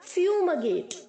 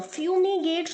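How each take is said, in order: First: The middle vowel is a light, short 'e'. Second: The middle vowel is a full, long 'ee'. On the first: The speaker calls it right. "हल्का सा ई की तरह sound करेगा" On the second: The speaker calls it wrong. "फ्यूमीगेट नहीं बोलेंगे आप"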